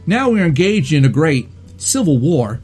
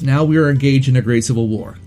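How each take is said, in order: First: A pause breaks the sentence a few words before the end. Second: The sentence runs smoothly with no pause. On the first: "so that little pause right there, that's very Walken" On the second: "So instead of saying"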